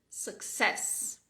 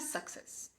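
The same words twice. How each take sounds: First: The stress is on the second syllable. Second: The stress is on the first syllable. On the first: The speaker calls it right. "e sim success. Success. Com a segunda parte mais forte" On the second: The speaker calls it wrong. "Não é success"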